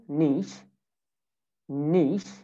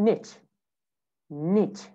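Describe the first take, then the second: First: British "niche", NEESH; British pronunciation. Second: American "niche", NITCH; American pronunciation. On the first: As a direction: say "niche" with long ee and SH. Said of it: "In British accent". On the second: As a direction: say "niche" with short i and CH. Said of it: "American accent". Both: Shown as a demonstration.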